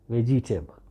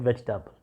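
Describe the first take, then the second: First: It is pronounced the way non-native speakers say it. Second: It is pronounced the way native speakers say it. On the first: The speaker calls it wrong. "You have no authority to say vegetable" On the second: The speaker calls it right. "the native speakers, they pronounce this word as vegetable"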